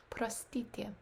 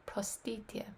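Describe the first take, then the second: No difference in how they are said.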